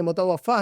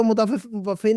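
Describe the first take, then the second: First: मुतवफ़ा with "-faa" at the end; correcting to मुतवफ़ा, open aa ending; corrected ending. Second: मुतवफ़ी with "-fee" at the end; anchor's mistaken मुतवफ़ी, ee ending. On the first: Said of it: "मुतवफ़ा है". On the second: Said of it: "हालांकि वो मुतवफ़ी नहीं है". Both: Shown as a demonstration.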